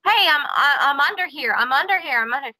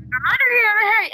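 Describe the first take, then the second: First: Slightly raised, hurried call for help; retold shouting. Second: High-pitched mock yell for help; retold harder shouting. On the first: Host retelling the trapped man's first shouts, mild mock shout. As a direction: call out from underneath, held back. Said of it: "he started shouting". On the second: Host as trapped man shouting even harder, high mock yell. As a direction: cry out urgently, pitch way up. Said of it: "he shouted even harder".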